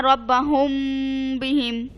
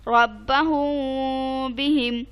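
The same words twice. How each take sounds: First: रब्बहुम बिहिम said at normal pace, मीम clipped with no nasal hold; plain quick reading without ghunna, as a bad example; wrong reading. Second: रब्बहुम बिहिम slowly recited, मीम of रब्बहुम held nasally before बिहिम; slow chant with nasal ghunna on the मीम; correct ikhfa. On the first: Teacher showing her student the wrong way, no ghunna. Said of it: "no, गलत है ये". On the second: Teacher giving the right reading to her student, slow nasal ghunna. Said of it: "अब ऐसे नहीं पढ़ना". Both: Shown as a demonstration.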